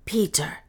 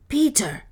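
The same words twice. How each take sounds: First: Said in the usual way. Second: Higher, louder second call of the name; louder urgent call. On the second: Acted. Soa calls Peter again to wake him, louder.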